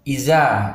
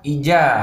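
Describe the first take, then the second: First: The middle consonant is a 'z' sound. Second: The middle consonant is a 'j' sound. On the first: "ada yang membaca dengan huruf za... Ini juga tidak boleh" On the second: "kita ganti dengan huruf ja... Tidak boleh"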